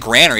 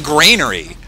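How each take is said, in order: First: The first syllable sounds like 'gran'. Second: The first syllable sounds like 'grain'. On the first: It is a place that holds grandmothers. The speaker calls it wrong. "It's not a granary. It doesn't hold gran" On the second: It is a place that holds grain. The speaker calls it right. "It's a thing that holds grain. It's a granary"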